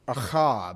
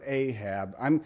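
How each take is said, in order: First: The name is pronounced with a Hebrew pronunciation. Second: The name is pronounced with an English pronunciation.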